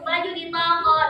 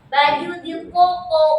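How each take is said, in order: First: Plain consonants with ordinary Indonesian vowels. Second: Thick, emphatic consonants pronounced the Arabic way. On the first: The speaker calls it wrong. "Kalau sampai ngajarin seperti itu baju di toko" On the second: The speaker calls it right. "harus tepat"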